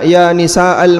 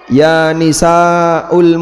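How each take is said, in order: First: The word ends with an 'a' vowel. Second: The word ends with a 'u' vowel. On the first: The speaker calls it right. "Ini harusnya harokatnya fathah" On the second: The speaker calls it wrong. "Kalau dhammah salah ya"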